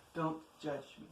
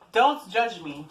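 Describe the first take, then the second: First: Softer, a near-whispered repeat; quiet. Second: Said in the usual way. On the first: Real, not acted. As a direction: murmur it under your breath.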